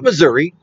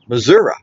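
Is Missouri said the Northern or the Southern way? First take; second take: Northern; Southern. First: It is said the way Northerners say it. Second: It is said the way Southerners say it. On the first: The speaker is a Northerner. The speaker calls it wrong. "you don't say Missouri unless you're a Yankee" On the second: The speaker is a Southerner or a local. The speaker calls it right. "If you're a Southerner or you're from there, you say Missouri"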